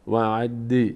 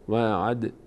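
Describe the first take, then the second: First: The final d is followed by a short i vowel. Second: The final d ends with a slight bounce, no vowel. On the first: The speaker calls it wrong. "این نباید حرکت کسره پیدا کنه، نگیم وعد وعد" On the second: The speaker calls it right. "دال در هنگامی که ساکن است مقداری در مخرجش میلرزه"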